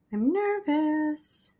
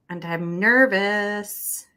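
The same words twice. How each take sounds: First: Higher, very slow, drawn-out nervous whine; mock nervous whine. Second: Said in the usual way. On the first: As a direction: stretch it out like a jittery kid.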